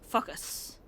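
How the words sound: The first vowel is a short 'uh' sound. "they say focus, and it sounds a lot like our pronunciation of fuck us"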